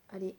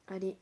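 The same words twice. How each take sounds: The two takes are said the same way.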